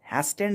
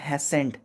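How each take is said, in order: First: हैस्टेंट with the t sounded; common mispronunciation. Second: हैसेंट with the middle t silent; correct pronunciation. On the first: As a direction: say हैस्टेंट as 'HAS-tent', hard t after s. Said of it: "हैस्टेंट नहीं". (हैस्टेंट, गलती से 'ट' बोलते हुए) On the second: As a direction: say हैसेंट as 'HAS-ent', plain s in the middle. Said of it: "इसको पढ़ते हैं हैसेंट". (हैसेंट, बीच का 'ट' मौन) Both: Shown as a demonstration.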